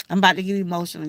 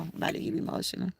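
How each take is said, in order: First: Said in the usual way. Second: Breathless fast whisper, much softer. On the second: Real, not acted. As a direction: whisper it, fighting tears.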